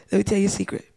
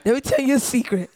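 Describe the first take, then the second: First: Said in the usual way. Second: Fast, giggling through the words; laughing. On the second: Pretend. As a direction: break into laughter while saying it.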